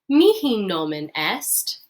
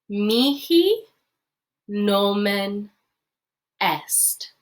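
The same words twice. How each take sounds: First: It is said faster. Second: It is said slowly.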